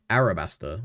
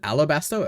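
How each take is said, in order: First: The second consonant is an R sound. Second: The second consonant is an L sound. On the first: The speaker calls it right. "I guess it's R" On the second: The speaker calls it wrong. "the whole time I thought it was an L"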